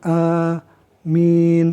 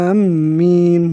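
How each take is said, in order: First: The m is single, the vowel is drawn out. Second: The m sound is doubled and held. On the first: The speaker calls it right. "harus ditakhfif, diringankan ... wa madin itu dipanjangkan" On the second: The speaker calls it wrong. "jangan ditasdidkan. Misalnya amin. Nah, seperti itu. Jangan seperti itu"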